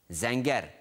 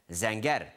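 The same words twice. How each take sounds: The two takes are said the same way.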